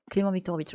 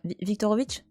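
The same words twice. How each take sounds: First: Viktorovitch settled with a firm falling close; Clément Viktorovitch said as the settled answer; confident name. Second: Viktorovitch tried hesitantly, rising like a question; unsure name. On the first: Streamer settles the name for chat, firm fall. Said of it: "Pour moi, c'est Clément Viktorovitch". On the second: Streamer checks the name with chat, unsure rise. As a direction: checks Viktorovitch with a doubtful upward lilt. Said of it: "c'est ça?". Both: Shown as a demonstration.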